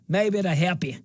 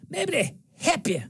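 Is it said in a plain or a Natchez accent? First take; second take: plain; Natchez. First: It is said in his usual accent. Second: It is said in a Natchez accent.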